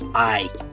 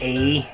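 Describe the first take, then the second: First: The vowel sounds like the word eye. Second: The vowel sounds like the one in hey. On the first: This is the borrowed Spanish pronunciation. The speaker calls it right. "we don't say a, we say I" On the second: This is how it would sound as an English word. The speaker calls it wrong. "we'd probably say a, like in the word hey"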